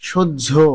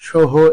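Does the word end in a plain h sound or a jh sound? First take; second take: jh sound; h sound. First: It ends in a doubled jh sound. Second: It ends in a plain h sound. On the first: The speaker calls it right. "শুদ্ধ উচ্চারণ আরো একবার বলে দিচ্ছি" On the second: The speaker calls it wrong. "এগুলো শুদ্ধ উচ্চারণ নয়"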